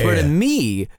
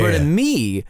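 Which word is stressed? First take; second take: me; me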